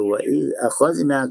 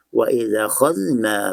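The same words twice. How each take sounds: First: A glottal stop is heard before akhadhna. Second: No glottal stop; the words run together. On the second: "maka berlaku naqal. Baris fathah hamzah dipindahkan kepada za"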